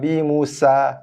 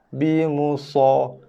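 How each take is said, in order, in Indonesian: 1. Bunyi s-nya biasa, ringan. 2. Bunyi s-nya tebal, emfatik. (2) "Kita membaca dengan so"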